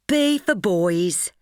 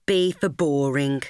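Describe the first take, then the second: First: Chanted, sing-song, slow and a little higher; chanted, tease her with it like a playground rhyme; chanted, slow mocking sing-song. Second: The deadpan second half of a taunt; flat mocking tag. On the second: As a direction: drop back down, dry and deadpan. Mocking chant to her friend.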